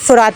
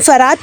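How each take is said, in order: First: The first syllable has a short 'u' vowel. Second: The first syllable has an 'a' vowel. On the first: "हल्का सा है छोटा ऊ" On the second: "बाकी फरात ही बोलते हैं उसको"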